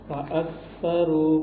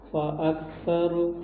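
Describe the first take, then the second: Both takes have the same delivery.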